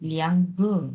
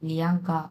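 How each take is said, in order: First: The second syllable ends in a rounded 'u' vowel. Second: The second syllable ends in an open 'a' vowel. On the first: The speaker calls it right. "লিয়াঙ্গু এরকম" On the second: The speaker calls it wrong. "গা না"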